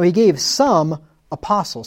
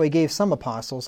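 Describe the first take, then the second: First: There is a pause after 'some'. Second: It is said with no pause inside.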